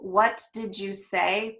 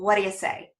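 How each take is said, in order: First: Each word is said fully and separately. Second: The words are reduced and run together.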